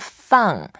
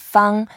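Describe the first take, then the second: First: The tone falls sharply from high to low. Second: The tone stays high and level. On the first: It means to put down or release. "when you say fourth tone, feng, that means to put down something or to release something" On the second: It means square. "when you say feng, that means square"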